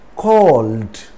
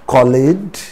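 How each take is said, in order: First: The ending adds no extra syllable. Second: The ending is said as an extra syllable. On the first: The speaker calls it right. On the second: The speaker calls it wrong.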